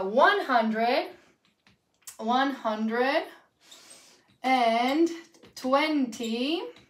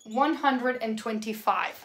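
First: Word by word. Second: One connected, measured run; whole number, slowly. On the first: Teacher dictating one hundred and twenty-five, piece by piece. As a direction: dictate in pieces with long pauses. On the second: Teacher repeating the dictated number, slow and connected. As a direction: say "one hundred and twenty-five" slowly without breaking it. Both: Shown as a demonstration.

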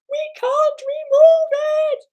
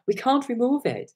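First: Very high, loud mock squeal; straining woman bartender. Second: High voice at ordinary volume; high-pitched retold protest; weak-voiced woman bartender. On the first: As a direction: imitate a small voice straining over music. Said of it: "to give it more, more weight". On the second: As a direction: imitate a voice too light to carry. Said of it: "she hasn't got that testosterone in the voice".

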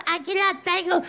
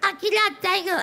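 Both takes have the same delivery.

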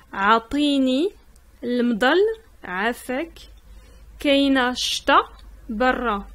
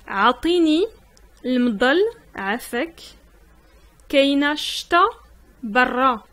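The two takes are said the same way.

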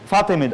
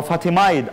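First: فاطميد ending in a short "-mid". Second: فاطمايد ending like "-mide"; long-i ending. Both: Shown as a demonstration. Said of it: "حسب اللغة".

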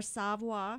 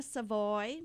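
First: "Savoy" ending in a "wah" sound; French-style pronunciation. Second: Put-on "Savoy" rhyming with "boy"; English-style pronunciation. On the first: Host offering another reading, "Savoy" as sahv-WAH. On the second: Host unsure of a birthday name, "Savoy" as suh-VOY. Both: Shown as a demonstration. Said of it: "Donna Savoy or Savoy".

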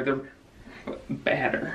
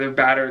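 First: Drawn-out whispered joke; slow whisper. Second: Said in the usual way. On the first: Pretend. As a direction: whisper it very slowly.

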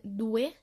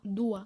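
First: Said in the usual way. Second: "دوا" ending in an open A instead of E; common mispronunciation. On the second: Shown as a demonstration. Teacher showing learners a common slip, mispronounced "دوا" ending in A. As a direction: say "دوا" with a final A sound. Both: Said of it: "في ناس بتنطقها دوا".

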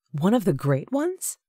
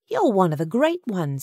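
First: Higher, rising doubtful question; sceptical echo. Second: Higher motherly voice, stated with conviction; earnest Agatha. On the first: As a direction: repeat it as a disbelieving question. Sutton doubts her words inwardly. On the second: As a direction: tell him firmly, as a sure fact. Agatha earnestly encourages Sutton. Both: A narrator's reading.

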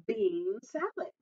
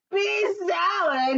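First: Said in the usual way. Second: High, drawn-out outraged shout; indignant cry. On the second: A narrator's reading. Giant reacting to his wife's bean salad, indignant cry. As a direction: cry it out slowly in disbelief. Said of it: "he cried".

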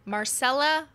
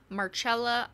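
First: "Marcella" as mar-SELL-uh, pitched up; pronunciation attempt. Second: "Marcella" with a ch sound, mar-CHELL-a; pronunciation attempt. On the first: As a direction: say "Marcella" with an s sound for the c, higher. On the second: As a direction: say "Marcella" the Italian way, c as ch. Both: Shown as a demonstration. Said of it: "I don't know the pronunciation".

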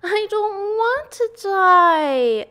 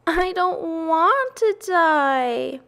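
First: High, loud, drawn-out shriek; full scream. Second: High, slow, drawn-out wail; tearful moan. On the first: Pig throws himself to the ground, screaming. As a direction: scream it out, stretching the words. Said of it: "screamed Wilbur". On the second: Pig bursts into tears before his friends, moaning. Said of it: "he moaned". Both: A narrator's reading.

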